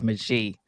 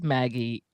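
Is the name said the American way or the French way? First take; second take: French; American. First: The name is said the French way. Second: The name is said the American way. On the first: "the French version of it is Magie" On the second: "it says Maggie"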